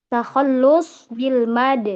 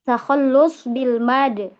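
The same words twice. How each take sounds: The two takes are said the same way.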